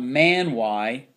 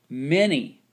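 First: The word ends with an 'eye' sound. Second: The word ends with an 'ee' sound. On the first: The speaker calls it wrong. "It's not man y" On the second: The speaker calls it right. "that Y makes the long E sound"

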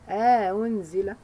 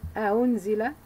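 First: A long vowel separates the two hamzas. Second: No long vowel separates the two hamzas. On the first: "one time with idkhal, insertion of the alif al-fasl" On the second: "one time without idkhal"

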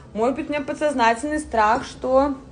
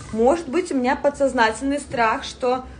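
Both takes have the same delivery.

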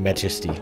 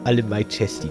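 First: It sounds like the English word majesty. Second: It sounds like the two words my chesty. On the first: The speaker calls it right. "heißt das Spiel eben Majesty" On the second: The speaker calls it wrong. "Haben wir alle My Chesty gesagt"

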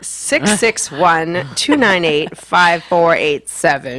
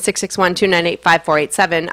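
First: The number is said at a slower pace. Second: The number is said at a quick pace.

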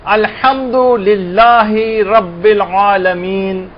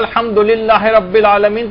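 First: It is recited slowly with the words kept apart. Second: It is recited quickly with the words run together.

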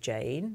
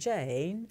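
First: The pitch simply rises throughout the name. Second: The pitch falls and then rises again.

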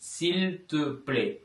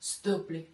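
First: The phrase is said with all its syllables. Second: The first syllable is dropped and squeezed together. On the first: This is the careful written form. "நாங்கள் எப்படி எழுதுறது" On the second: This is casual speech with close people. "பேச்சு வழக்கில் ஸ்து பிளே"

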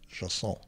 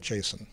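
First: It does not sound like the name Jason. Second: It sounds like the personal name Jason. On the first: The speaker calls it right. "It turns out the correct pronunciation is JSON" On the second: The speaker calls it wrong. "I always called it JSON. like the person's name"

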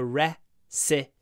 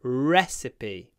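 The two takes are said the same way.

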